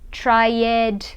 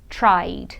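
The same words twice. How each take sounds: First: The ending is said as an extra syllable. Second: The ending is said as only a D sound. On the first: The speaker calls it wrong. "Muita gente fala assim, pronunciando o E, E D, mas não" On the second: The speaker calls it right. "você fala só o D, tira o E da pronúncia"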